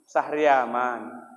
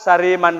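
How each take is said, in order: First: The name is said in full with four syllables. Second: The name is said with three syllables. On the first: The speaker calls it right. "Sahri, mencari aman" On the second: The speaker calls it wrong. "gak mau aku maju"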